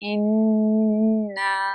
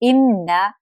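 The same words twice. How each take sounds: First: The nasal sound is held with a hum. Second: The nasal sound is short, without a hum. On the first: The speaker calls it right. "नाक में आवाज़ को होल्ड करेंगे" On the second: The speaker calls it wrong. "इस तरह नहीं पढ़ सकते"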